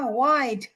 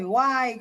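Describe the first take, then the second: First: The final D sound is clearly pronounced. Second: The final D sound is dropped. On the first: The speaker calls it right. "nói từng âm một rõ ràng ra" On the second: The speaker calls it wrong. "Cứ phải why thì nó chả nghĩa lý gì cả"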